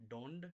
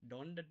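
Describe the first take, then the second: The two takes are said the same way.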